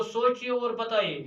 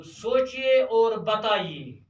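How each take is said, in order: First: Said in the usual way. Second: सोचिए और बताइए said very slowly, each word stretched and a bit louder; slow dictation. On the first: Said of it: "सवाल number दो". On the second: Shown as a demonstration. Teacher to his pupils, dictating सोचिए और बताइए slowly. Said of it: "पाँच सवाल number दो".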